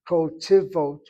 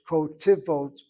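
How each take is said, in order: The two takes are said the same way.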